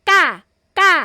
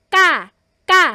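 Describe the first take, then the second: No difference in how they are said.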